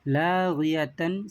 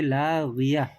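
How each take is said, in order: First: The word ends with a full 'tun' syllable. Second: The word ends with a soft 'h' sound. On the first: "तन को निकाल कर सिर्फ हा को पढ़ा जाता है" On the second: "सिर्फ हा को पढ़ेंगे"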